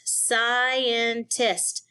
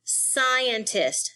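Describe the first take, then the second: First: "scientist" in three beats, sci-en-tist; syllable by syllable. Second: Said in the usual way. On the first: Shown as a demonstration. Teacher showing three syllables, "scientist" broken apart. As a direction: separate each syllable of "scientist". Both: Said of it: "Three syllables".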